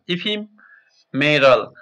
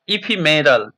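First: "ephemeral" slowly, each syllable split e-phe-me-ral; slow syllable-by-syllable "ephemeral" for students; syllables spelled out. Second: Said in the usual way. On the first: Shown as a demonstration. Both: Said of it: "Listen to your teacher saying the words".

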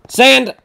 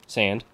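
First: High, loud shout of SAND; urgent calling out. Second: Said in the usual way. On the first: Real, not acted. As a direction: yell SAND to summon your teammate. Calls teammate again.

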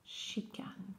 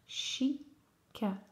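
First: Said in the usual way. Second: Chicane split as "chi - ca - ne"; syllable by syllable. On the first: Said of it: "coller les syllabes". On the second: Shown as a demonstration. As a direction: pause between the sounds of Chicane. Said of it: "Trois syllabes".

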